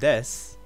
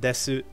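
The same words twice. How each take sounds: First: The final vowel is clipped. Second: The final vowel is fully sounded. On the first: The speaker calls it right. "Just like how in desu" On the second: The speaker calls it wrong. "it's not desu"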